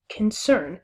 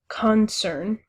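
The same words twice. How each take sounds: First: The stress is on the second syllable. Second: The stress is on the first syllable. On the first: The speaker calls it right. "allow the emphasis to fall on the second syllable" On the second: The speaker calls it wrong. "you wouldn't say concern"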